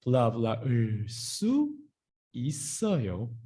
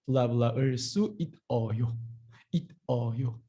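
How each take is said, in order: First: 있어요 linked as i-sseo-yo; correct linked pronunciation. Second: 있어요 as it-eo-yo, with no linked s; wrong unlinked pronunciation. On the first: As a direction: carry a tense s into the second syllable of 있어요. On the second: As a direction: say 있어요 as spelled, stopping on a t. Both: Shown as a demonstration. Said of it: "not like that".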